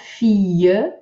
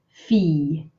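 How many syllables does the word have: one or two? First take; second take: two; one. First: The word is split into two syllables. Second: The word is said as one syllable. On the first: The speaker calls it wrong. "not fille" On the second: The speaker calls it right. "Make sure you only make one syllable with this word"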